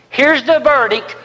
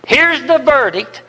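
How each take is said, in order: Both takes have the same delivery.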